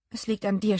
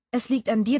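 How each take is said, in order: First: Said in the usual way. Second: Louder repeat rising on "dir"; stress on dir. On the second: Acted. Sus presses Becky again, stressing "dir" louder with a rise. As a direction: lean hard on "dir" and lift it like a question.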